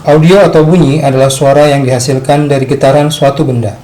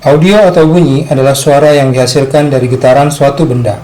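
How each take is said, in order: The two takes are said the same way.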